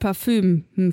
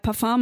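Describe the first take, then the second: First: The word ends with a German ü vowel. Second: The word ends with a French-style vowel. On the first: The speaker calls it right. "mal Parfüm" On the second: The speaker calls it wrong. "ich sage mal Parfum"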